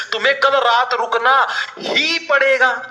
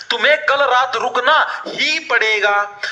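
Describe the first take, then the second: First: कल and ही pressed in तुम्हें कल रात रुकना ही पड़ेगा, slow; emphasis on ही. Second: Said in the usual way. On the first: Shown as a demonstration. Teacher shows students the emphasis on ही. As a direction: lean on कल and ही. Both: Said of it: "जोर डाला है".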